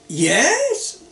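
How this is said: It is said in a bright, enthusiastic way. The idea sounds great. "really sounds great"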